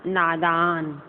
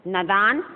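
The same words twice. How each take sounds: First: "नादान" as naa-daan; lengthened naa in "नादान"; long first vowel. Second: "नादान" as na-daan, short first vowel; rising nə-daan for "नादान"; wrong short vowel. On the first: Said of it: "शुद्ध लिखना है ना". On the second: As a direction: cut the first a of "नादान" short, ending on a rise. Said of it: "ये अशुद्ध लिखे हैं". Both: Shown as a demonstration.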